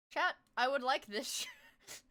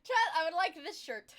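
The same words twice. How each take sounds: First: Slow whiny plea. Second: Laughing while begging chat; laughing plea. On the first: Shown as a demonstration. Whining request to chat. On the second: Real, not acted. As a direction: beg through laughter.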